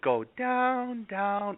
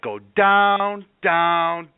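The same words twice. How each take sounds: First: It is said softly and calmly. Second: It is said loudly, like yelling. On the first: "I'm not saying" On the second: "I'm yelling at you to go to sleep"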